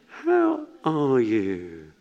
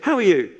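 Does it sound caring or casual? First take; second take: caring; casual. First: It sounds caring, falling on "you". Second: It sounds casual and routine.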